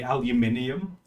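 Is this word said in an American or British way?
British. It is said with a British pronunciation. "over here we say aluminium"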